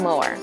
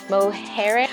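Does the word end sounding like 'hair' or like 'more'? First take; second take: more; hair. First: It is said like 'more', with no 'hair' ending. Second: It is said like 'mohair', ending in 'hair'. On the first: The speaker calls it right. "it's pronounced more" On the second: The speaker calls it wrong. "I incorrectly pronounced the Cliffs of Moher like mohair"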